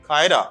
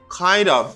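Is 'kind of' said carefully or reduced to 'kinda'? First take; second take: reduced; careful. First: The words blur together into one quick 'kinda'. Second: Both words are said fully and separately.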